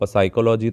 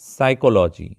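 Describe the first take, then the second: First: The word begins with a 'p' sound. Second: The word begins with an 's' sound. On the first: The speaker calls it wrong. "इसको साइकोलॉजी तो नहीं बोलते ना" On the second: The speaker calls it right. "साइकोलॉजी में भी पी silent है"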